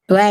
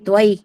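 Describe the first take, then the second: First: The vowel is a single short gliding sound. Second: The vowel is drawn out into two parts. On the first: The speaker calls it wrong. "त्वै नहीं" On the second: The speaker calls it right. "महित्वई दो मात्राएं हैं"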